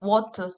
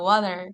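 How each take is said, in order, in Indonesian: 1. Kata ini diucapkan dengan aksen Australia. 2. Kata ini diucapkan dengan aksen Amerika. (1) "kalau Aussie kira-kira gimana tuh?" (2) "ini bahasa Inggris kita banget nih, U S A"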